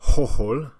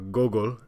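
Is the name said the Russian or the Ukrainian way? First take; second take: Ukrainian; Russian. First: The name is said the Ukrainian way. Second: The name is said the Russian way. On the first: "That's the uh, Ukrainian pronunciation" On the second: "as he's known here in Russia"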